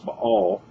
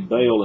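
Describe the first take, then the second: First: Baal is said in the original Hebrew way. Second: Baal is said with a Southern US accent.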